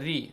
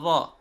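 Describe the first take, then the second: First: The vowel after r is a close i. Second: The vowel after r is an open a. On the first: "the sound of kasra with ra is ra kasra ri" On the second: "The sound of fatha with ra is ra"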